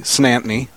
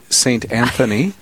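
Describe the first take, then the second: First: The name is squeezed into two quick syllables. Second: Each syllable of the name is said clearly. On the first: The speaker calls it right. "You say Snantney, or something along the lines of that" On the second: The speaker calls it wrong. "You do not say St. Anthony"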